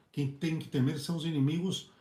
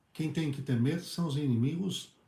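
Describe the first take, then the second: No difference in how they are said.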